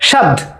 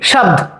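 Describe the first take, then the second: First: The word ends on a consonant cluster. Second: The same.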